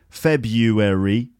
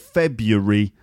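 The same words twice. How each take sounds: First: The word is said with four syllables. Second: The word is said with three syllables. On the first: "February, four syllables" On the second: "Or February, three syllables"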